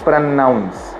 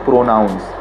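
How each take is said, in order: First: The n sound is held long, like double. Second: The n sound is short and quick. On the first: The speaker calls it right. "ऐसा feel होना चाहिए कि double एन है" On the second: The speaker calls it wrong. "It's not pronounce"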